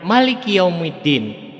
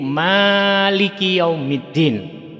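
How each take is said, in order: First: The vowel after the m is short. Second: The vowel after the m is long. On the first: "tidak panjang pada mimnya" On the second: "membaca panjang pada mimnya"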